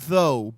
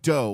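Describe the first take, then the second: First: The word begins with a th sound. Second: The word begins with a d sound. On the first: "not though" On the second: "but dough"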